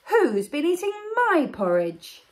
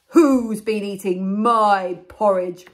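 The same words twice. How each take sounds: First: It is said in a medium-sized voice. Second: It is said in a very loud voice.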